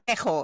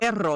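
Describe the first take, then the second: First: The double r is said the rural Puerto Rican way. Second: The double r is said the standard way. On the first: The speaker calls it wrong. "No es pejo" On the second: The speaker calls it right. "you got to say it the right way"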